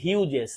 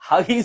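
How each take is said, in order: First: The name starts with a 'hue' sound. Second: The name starts with a 'hag' sound. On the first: The speaker calls it right. "এটা হচ্ছে যে হিউজেস" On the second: The speaker calls it wrong. "অনেকে আমরা বাঙালিরা হাগিস বলি, হাগিস বলা যাবে না"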